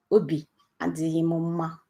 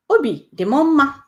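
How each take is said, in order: First: Sad and subdued. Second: Higher, brighter happy lift. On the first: Teacher modelling the sad phrase, softer and downcast. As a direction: sound a little down. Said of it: "that means I'm sad". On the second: Teacher modelling the happy phrase, higher and louder. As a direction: lift the voice up with joy. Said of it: "I'm happy". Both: Shown as a demonstration.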